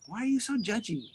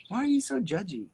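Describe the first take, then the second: First: Mock scolding. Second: Mock scolding, a bit louder.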